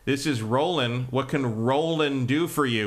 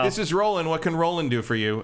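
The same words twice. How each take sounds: First: It is said pointedly, stressing the name Roland. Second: It is said flatly, with no stress on Roland.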